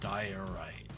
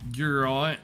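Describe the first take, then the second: First: It is said like 'diorite', ending in -ite. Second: It is said like 'durant', ending in -ant. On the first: "How'd you get Durant from diorite?" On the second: "Some people uh, seem to pronounce it who do YouTube videos"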